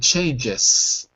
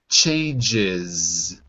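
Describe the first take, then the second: First: The final sound is a hissing S sound. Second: The final sound is a buzzing Z sound. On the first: The speaker calls it wrong. "If I said it with an S" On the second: The speaker calls it right. "If I say it naturally, ... Like zoo"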